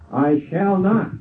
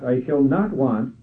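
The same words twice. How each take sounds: First: NOT held long and lifted high; stress on NOT. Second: NOT leaned on, with want following plainly; stress on NOT again. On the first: Preacher reciting the psalm, stressing NOT. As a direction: lean hard on the word not. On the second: Preacher completing the psalm with NOT stressed. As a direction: press the word not, then finish the line. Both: Shown as a demonstration. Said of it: "emphasis on the word not".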